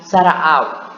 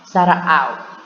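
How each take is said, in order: No difference in how they are said.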